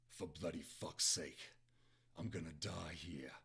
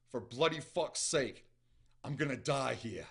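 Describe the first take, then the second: First: Low, slow British curse; lightly put-on British accent, subdued. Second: Exasperated curse, raised and louder; character's frustrated outburst in the reader's own accent; angry growl. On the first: Shown as a demonstration. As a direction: growl it lower with a British accent. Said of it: "I'm gonna go with the British accent". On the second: A narrator's reading. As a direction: curse it out slowly with force. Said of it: "he growled".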